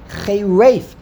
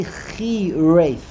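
First: "Chei Reif" slowly, first syllable rhyming with day; ay vowel in Chei. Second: "Chi Reif" slowly, first syllable rhyming with see; long ee in "Chi", ay in "Reif"; ee vowel in Chi. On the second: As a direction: sound out "Chi Reif" opening on khee. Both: Shown as a demonstration. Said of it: "It doesn't say Chi Reif".

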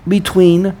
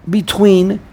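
Both takes have the same delivery.

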